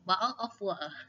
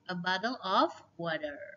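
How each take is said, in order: First: It is said in a British accent. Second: It is said in a plain accent.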